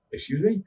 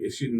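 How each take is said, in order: First: High rising "excuse me?", caught off guard; incredulous excuse me. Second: Said in the usual way. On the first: Retold or imitated. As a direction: ask "me?" high and rising, stunned. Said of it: "and the guy's like". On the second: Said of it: "Like, he was like".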